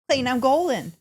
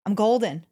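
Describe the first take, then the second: First: Higher, punchier I'm golden; a burst of race-day confidence; excited. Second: Said in the usual way. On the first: Shown as a demonstration. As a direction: sell it like a victory cry. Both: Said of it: "This is what it sounds like".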